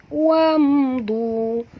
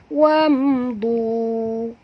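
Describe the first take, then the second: The two takes are said the same way.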